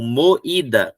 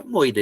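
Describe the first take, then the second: First: "moída" split as mo, then Í-da; "moída" with a tiny break before the stressed i; highlighted i. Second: "moida" as two syllables, MOI-da; "moida" with stressed o and weak i; vowels glued together. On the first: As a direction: make the í stand out in "moída". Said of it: "preciso ter esse destaque". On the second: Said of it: "ele vai grudar". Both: Shown as a demonstration.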